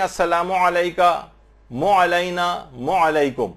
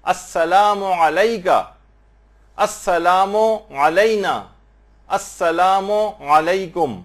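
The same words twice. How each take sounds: First: مو علیکم with میم and عین merged into مو; wrong joined sound. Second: السلام علیکم very slowly, a small pause between میم and عین; slight gap. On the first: Retold or imitated. Teacher imitating people who merge the letters. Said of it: "مثلا لوگ کہتے ہیں". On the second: Shown as a demonstration. Teacher showing the correct separated pronunciation. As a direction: leave a brief break before علیکم. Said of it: "اس میں gap دیں".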